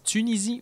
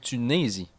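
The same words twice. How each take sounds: First: The second vowel sounds like 'ee'. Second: The second vowel sounds like 'ay'. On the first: "avec un I" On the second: "avec un E accent aigu"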